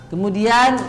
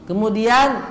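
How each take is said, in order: The two takes are said the same way.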